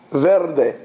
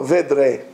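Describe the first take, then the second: First: "Verde" with R before D, VER-de; Spanish sound order. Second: "Vedre" with D before R, VED-re; Ladino swapped order. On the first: Teacher answering how Spanish says green, "Verde" R first. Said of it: "How do you say green?". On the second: Teacher showing Ladino word for green, "Vedre" D first. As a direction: swap the R and D: "Vedre". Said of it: "Change the order". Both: Shown as a demonstration.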